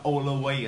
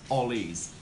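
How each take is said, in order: First: The word is said with more than two syllables. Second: The word is said with exactly two syllables. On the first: The speaker calls it wrong. "do not pronounce something like always" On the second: The speaker calls it right. "we pronounce always two syllable only"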